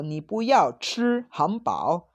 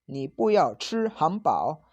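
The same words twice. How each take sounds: First: Puyao said with pu in fourth tone; wrong tone. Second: Puyao said with pu in rising second tone; corrected tone. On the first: Teacher's first take of the Chinese sentence, wrong tone on pu. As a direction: say "puyao" with pu falling, the mistaken take. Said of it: "Acá tengo un error en el tono". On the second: Teacher repeating the Chinese sentence with the corrected tone on pu. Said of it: "va con segundo tono". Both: Shown as a demonstration.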